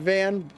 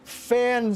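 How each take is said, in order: First: The name begins with a V sound. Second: The name begins with an F sound. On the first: "I've been saying Van" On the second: "if that's the correct way of pronouncing it"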